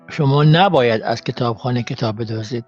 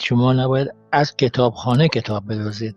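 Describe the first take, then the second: First: The stress falls on the word for 'should not'. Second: The stress falls on the word for 'library'. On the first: Stealing is not expected, but would not be surprising. "the stress, na boyad" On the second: Stealing from other places would be fine. "put a stress on the different"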